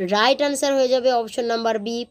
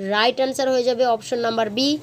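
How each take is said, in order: The two takes are said the same way.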